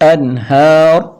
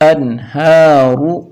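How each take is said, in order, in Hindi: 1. शब्द बिना स्वर के व्यंजन पर खत्म होता है। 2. शब्द छोटे स्वर पर खत्म होता है।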